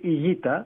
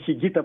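First: The name begins with a vowel, no throaty sound. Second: The name begins with a throaty ch sound. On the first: This is how it is said in Spanish. "η ισπανική προφορά είναι η Γκίτα" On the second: This is how it was always said locally. "που τον λέγαμε εμείς μια ζωή"

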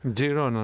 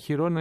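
First: The name starts with a 'j' sound. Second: The name starts with an 'h' sound. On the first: This is the Catalan form of the name. The speaker calls it right. "Τζιρόνα να μου τη λες αυτή" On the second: This is the Spanish form of the name. The speaker calls it wrong. "Χιρόνα είναι στα ισπανικά"

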